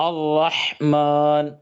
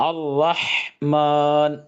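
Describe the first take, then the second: No difference in how they are said.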